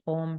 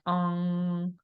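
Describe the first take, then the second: First: The word ends with an m sound. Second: The word ends with an ng sound. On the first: This is the usual modern form. "normally we will do it with the M" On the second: This is the old tantric form. "in the old tantric versions, we have N G at the end"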